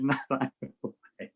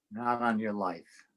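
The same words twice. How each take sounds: First: Knowing, teasing denial; sly wink. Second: Said in the usual way. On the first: Retold or imitated. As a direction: deny it with a wink in the voice. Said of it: "I winked and said". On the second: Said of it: "And I went".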